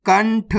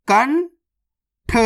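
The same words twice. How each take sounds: First: Said in the usual way. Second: कंठ very slowly, high rising kan, long pause, then tha; split into syllables. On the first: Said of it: "तो मिलके बन जाएगा". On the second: Shown as a demonstration. Teacher breaking a word down for learners, split into syllables. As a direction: sound out कंठ in two separate parts. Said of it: "direct मात्रा का उच्चारण करके पढ़ेंगे".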